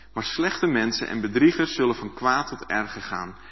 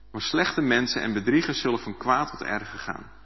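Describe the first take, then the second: No difference in how they are said.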